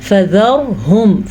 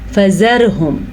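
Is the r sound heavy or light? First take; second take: heavy; light. First: The r is pronounced heavy and full. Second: The r is pronounced light and thin. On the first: The speaker calls it right. "दुरुस्त क्या है?" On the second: The speaker calls it wrong. "अगर कोई बारीक पढ़ेगा तो वो गलत पढ़ेगा"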